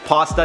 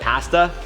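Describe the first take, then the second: First: It is said with an American pronunciation. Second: It is said with a Canadian pronunciation. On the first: "I'm half American, so I say things like pasta" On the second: "instead of pasta"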